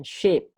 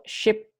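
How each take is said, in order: First: "sheep" with a long ee; long vowel. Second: "ship" with a short lax i; short vowel. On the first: Teacher showing a confusable pair, "sheep" with a long ee. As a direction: draw out the ee in "sheep". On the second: Teacher showing a confusable pair, "ship" with a short i. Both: Shown as a demonstration. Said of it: "Ini kadang-kadang orang banyak salah".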